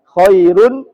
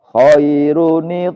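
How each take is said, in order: First: The word ends in a plain 'n' sound. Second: The word ends with an added 'ni' syllable. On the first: The speaker calls it wrong. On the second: The speaker calls it right.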